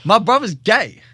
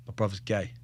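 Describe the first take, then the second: First: Retold news, loud and high; emphatic repeat. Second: Retold confession, low and soft; hushed confession. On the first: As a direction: say it louder so he finally hears. Repeats news to unheeding friend. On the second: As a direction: break the news quietly, in a low voice. First, hesitant confession to friend.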